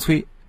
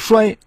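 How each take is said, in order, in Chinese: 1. 按古音来读。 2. 按现代普通话来读。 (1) "应当保留古音旧音" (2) "要是读成衰，那韵味也就丢了。"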